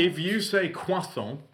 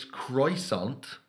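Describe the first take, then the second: First: Higher, slow, over-French croissant; mock French croissant. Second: Slow French croissant, dropping the t. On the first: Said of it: "and you're not French". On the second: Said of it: "It's croissant". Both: Shown as a demonstration.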